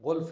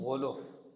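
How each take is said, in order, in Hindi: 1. L के बाद सीधे F आता है। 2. L के बाद u स्वर आता है। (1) "गुल्फ नहीं" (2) "लाम के पेश के साथ"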